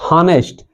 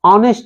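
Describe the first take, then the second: First: The word begins with an audible h sound. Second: The word begins with a vowel, no h. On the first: The speaker calls it wrong. "Not हॉनेस्ट" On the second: The speaker calls it right. "ऑनेस्ट है"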